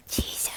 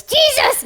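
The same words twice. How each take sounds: First: Hushed, breathy whisper; very soft whispered call. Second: High-pitched puppet shout; squeaky, sudden yell. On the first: Shown as a demonstration. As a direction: demonstrate saying it under your breath. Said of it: "just whisper". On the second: Acted. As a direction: blurt it out far too eagerly. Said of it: "No shouting".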